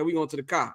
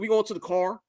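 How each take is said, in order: First: The R at the end is dropped. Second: The R at the end is pronounced strongly.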